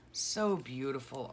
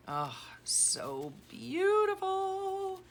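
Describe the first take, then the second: First: Said in the usual way. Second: Very high, slow swooning coo. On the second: Real, not acted. Gushing over a friend's journal, very high and slow. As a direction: stretch it out high in delight.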